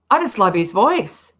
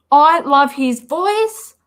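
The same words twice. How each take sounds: First: Said in the usual way. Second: High, loud, drawn-out swoon; swooning fan, pitched up and louder; gushing admiration. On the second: Real, not acted. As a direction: gush slowly, stretching out the adoration. Gushing over a favourite voice.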